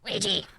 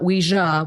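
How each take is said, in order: First: The word is said in a distorted, electronic-sounding voice. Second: The word is said in a normal voice. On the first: "It'd be more like Ouija" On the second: "which is the proper pronunciation"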